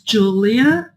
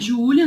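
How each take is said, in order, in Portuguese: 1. O nome é pronunciado do jeito inglês. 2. O nome é pronunciado do jeito português. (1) "Se eu falo em inglês" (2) "Meu nome é Júlia"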